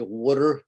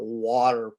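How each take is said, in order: First: The first vowel sounds like 'wood', giving 'wooder'. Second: The first vowel is the usual 'wah' sound.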